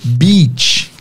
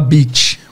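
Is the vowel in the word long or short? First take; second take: long; short. First: The vowel is a long, stretched ee sound. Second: The vowel is a short i sound. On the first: The speaker calls it right. "ao invés da gente falar" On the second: The speaker calls it wrong. "a gente pronuncia no lugar do I longo, o I curto"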